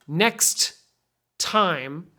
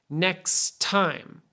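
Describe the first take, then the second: First: There is a stop between the two words. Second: The two t sounds join into one. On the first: The speaker calls it wrong. "you don't need to stop in the middle like that" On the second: The speaker calls it right. "Take these two T's and just make it sound like one T"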